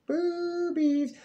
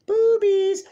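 First: High squeal. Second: Very high, loud shouted outburst; excited shout. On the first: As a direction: squeak the word in a silly high voice. Repeated outburst, higher voice. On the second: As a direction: blurt it out at the top of your voice. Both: Real, not acted.

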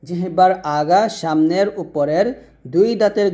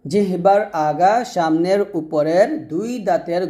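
Both takes have the same delivery.

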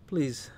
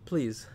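No difference in how they are said.

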